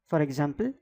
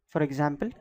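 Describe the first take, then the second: The two takes are said the same way.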